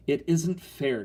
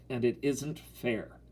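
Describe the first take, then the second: First: Higher indignant protest; furious. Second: Slow, understated bitter protest; grim. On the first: Girl protests to her mother, furiously. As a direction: protest hotly, pitched up. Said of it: "Terry said furiously". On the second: Girl complains to brother about mother, grimly. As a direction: weigh each word glumly. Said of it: "Terry said grimly". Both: A narrator's reading.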